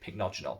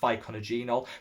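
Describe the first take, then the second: First: The word starts with a tight cluster, like 'pick-no'. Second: The word starts with an extra vowel, like 'fick-oh-na'. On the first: The speaker calls it right. "you pronounced it pycnogenol" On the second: The speaker calls it wrong. "where I used to call it ficonagenol"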